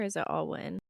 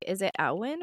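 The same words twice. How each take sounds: First: Alwyn with AL as in all; alternative pronunciation. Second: Alwyn with AL as in pal; first-syllable variant. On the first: Co-host offers the other option for the surname, ALL-win pronunciation. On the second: Co-host checks how the surname is said, AL-win pronunciation. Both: Shown as a demonstration. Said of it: "is it Alwyn or is it Alwyn".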